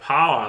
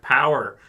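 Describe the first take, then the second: First: The word sounds close to a short 'pa'. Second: The word is said in the ordinary way. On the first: "They say like power like that" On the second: "They they don't say power like power"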